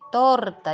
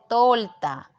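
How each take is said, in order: First: The consonant before the t is an r. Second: The consonant before the t is an l. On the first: The speaker calls it right. "dice torta" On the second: The speaker calls it wrong. "cambia una letra"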